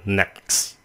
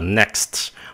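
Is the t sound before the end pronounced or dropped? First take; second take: dropped; pronounced. First: It is said quickly with the t sound dropped. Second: It is said slowly with the t sound. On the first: "cho nên cái chữ next các bạn có thể phát âm là next, vậy thôi" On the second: "Khi mình nói chậm thì cái chữ này nó là next"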